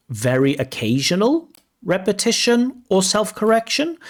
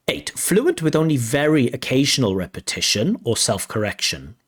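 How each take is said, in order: First: High, rising, incredulous; doubtful question. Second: Said in the usual way. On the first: Shown as a demonstration. Examiner doubting the descriptor for viewers, incredulous rise. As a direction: question the wording in disbelief.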